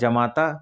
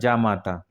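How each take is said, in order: First: The first vowel is short. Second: The first vowel is long. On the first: The speaker calls it wrong. "एक होता है जमाता" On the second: The speaker calls it right. "एक्चुअल में शुद्ध रूप"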